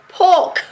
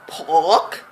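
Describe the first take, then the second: First: PORK with the R dropped, close to "poke"; home pronunciation. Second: PORK with the R sounded, drawn out; R pronounced. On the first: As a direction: say PORK the Vincy way, no R. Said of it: "like how we say it back home". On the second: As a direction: say PORK with a clear R. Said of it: "did not pronounce my R". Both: Shown as a demonstration.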